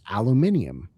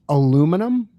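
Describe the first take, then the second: First: It is said with a British pronunciation. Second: It is said with an American pronunciation. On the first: "In Europe" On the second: "is how we say the metal here in uh, the U S"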